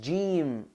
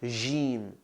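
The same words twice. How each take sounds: First: The j is hard, as in English jam. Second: The j is soft, like a French j. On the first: The speaker calls it right. "it's jim" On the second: The speaker calls it wrong. "not jim"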